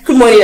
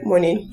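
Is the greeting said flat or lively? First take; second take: lively; flat. First: It is said with lively, friendly tone. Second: It is said flat, with no tone.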